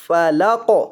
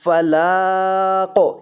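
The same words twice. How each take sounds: First: Said in the usual way. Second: "فلا" with the la held very long before "قو"; wrongly lengthened lam. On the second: Shown as a demonstration. Teacher showing the mistake to avoid, "لا" drawn out long in "فلا قو". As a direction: stretch the vowel of "لا" far too long. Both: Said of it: "لام کو لمبا نہیں کرنا".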